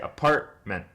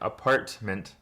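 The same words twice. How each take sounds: First: The middle T is a glottal stop. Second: The middle T is fully pronounced. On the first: The speaker calls it right. "The T becomes a bit of a glottal stop" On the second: The speaker calls it wrong. "Nobody ever really pronounces the T like apartment"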